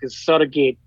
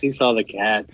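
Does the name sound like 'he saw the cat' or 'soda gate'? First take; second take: soda gate; he saw the cat. First: The name is run together like 'soda gate'. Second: The name is said as plain English words. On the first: The speaker calls it wrong. "Pronouncing it all crazy" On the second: The speaker calls it right. "it's "He saw the cat.""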